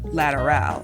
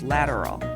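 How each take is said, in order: First: The name is pronounced with Spanish sounds. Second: The name is pronounced with English sounds.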